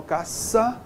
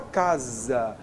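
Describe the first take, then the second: First: "caça" said with a hissed s, like "kassa"; caça with s sound. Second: "casa" said with a voiced s, like "kaza"; casa with z sound. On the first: Teacher contrasting for the class "caça" with an s sound. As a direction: keep the ç in "caça" unvoiced, a clear s. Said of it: "eu não falo caça". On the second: Teacher demonstrating to the class "casa" with a z sound. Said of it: "a gente fala casa". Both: Shown as a demonstration.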